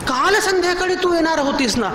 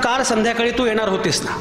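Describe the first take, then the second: First: The stress falls on the word काल. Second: No word is given special stress. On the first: "आज कशी आलीस?" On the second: "plain म्हटलात"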